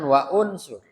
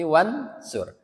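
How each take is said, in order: First: The 'u' after 'wa' is pronounced separately. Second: The 'u' is dropped, and 'wa' links straight on. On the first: The speaker calls it wrong. "jangan wa unsur" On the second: The speaker calls it right. "tapi wansur"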